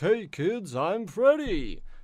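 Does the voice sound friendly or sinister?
friendly. It sounds cheerful, cartoony and friendly.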